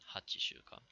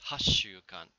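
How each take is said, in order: First: The first part is said in full as 'hachi'. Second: The first part is shortened to a doubled 'ha-ss'. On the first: The speaker calls it wrong. "rather than hachishukan" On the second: The speaker calls it right. "for eight weeks we read as hashukan"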